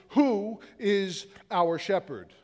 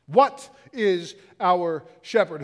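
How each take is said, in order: First: Slow, weighty stress on "who". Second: Slow, loud stress on "What". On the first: Preacher putting the question to the congregation, stress on "who". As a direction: draw out "who", pausing between the words. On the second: Preacher pressing the congregation with the reworded question, stress on "What". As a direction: hit "What" hard, then space out the words. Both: Real, not acted.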